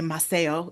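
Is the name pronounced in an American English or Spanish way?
Spanish. The name has a Spanish-style pronunciation. This is the original pronunciation of the name. "We're not gonna say Maceo"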